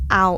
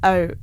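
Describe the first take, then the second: First: The word has a standard 'ow' vowel sound. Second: The word has a local 'oo' vowel sound. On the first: "instead of like out" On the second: "it's o"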